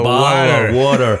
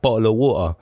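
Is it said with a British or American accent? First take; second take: American; British. First: It is said in an American accent, with the T sounded. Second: It is said in a British accent, with a dropped T.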